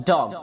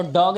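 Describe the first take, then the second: First: डॉग with teeth meeting on the d; correct d sound. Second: डॉग with a plain hard Hindi d; wrong pronunciation. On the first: Teacher modelling the word for kutta, correct d sound. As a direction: give डॉग one punched English d. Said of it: "डी बोलते समय आपके दांत टकराते". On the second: Teacher showing the mistake in dog, wrong pronunciation. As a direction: say डॉग as learners usually do. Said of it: "तो डॉग नहीं होता है". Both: Shown as a demonstration.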